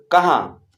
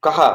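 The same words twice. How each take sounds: First: कहाँ with the final आँ nasalised through the nose; nasal vowel. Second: Said in the usual way. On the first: Shown as a demonstration. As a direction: say कहाँ letting the last vowel ring in the nose. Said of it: "नाक से न का उच्चारण निकालना पड़ता है". (कहाँ का आखिरी आँ नाक से बोलें) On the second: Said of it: "आधी बोलने में नाक से न का उच्चारण नहीं होता है".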